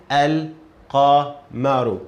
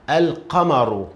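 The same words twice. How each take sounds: First: Al-qamaru very slow, each syllable clear; slow model reading. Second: Al-qamaru with a clear lam; lam pronounced. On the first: Teacher repeats it slowly for a student. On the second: Teacher reads the whole word for a student. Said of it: "the word together". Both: Shown as a demonstration.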